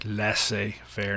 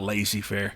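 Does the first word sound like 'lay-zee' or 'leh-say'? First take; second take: leh-say; lay-zee. First: The first word sounds like 'leh-say'. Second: The first word sounds like 'lay-zee'. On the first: The speaker calls it right. "that's how it's pronounced en français" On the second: The speaker calls it wrong. "not lazy-faire, as I've heard some teachers pronounce it"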